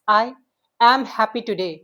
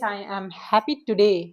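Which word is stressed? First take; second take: am; today. First: The stress is on am. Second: The stress is on today.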